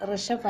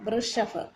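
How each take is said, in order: First: ഋഷഫ് said as rishaph, the wrong way; wrong pronunciation. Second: വൃഷഫ് said as vrushaph, with a clear v and ru; correct pronunciation. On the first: Teacher showing students the wrong reading ഋഷഫ്. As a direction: say ഋഷഫ് with a plain ri sound as a wrong model. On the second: Teacher correcting students: വൃഷഫ് said as vrushaph. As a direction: say വൃഷഫ് with v plus ru, the right way. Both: Shown as a demonstration. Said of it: "ഋഷഫ് അല്ല".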